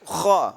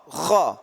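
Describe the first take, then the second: No difference in how they are said.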